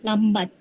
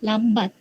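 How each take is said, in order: The two takes are said the same way.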